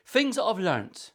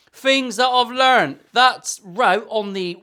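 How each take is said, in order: First: Said in the usual way. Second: Loud, slow, raised voice; loud drawn-out announcement; shouting. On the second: Real, not acted. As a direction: slowly call it out loud. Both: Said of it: "why am I shouting?".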